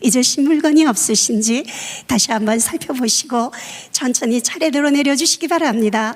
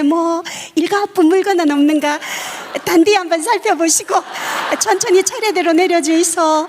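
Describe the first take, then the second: First: It is said in standard Korean. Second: It is said in Gyeongsang dialect.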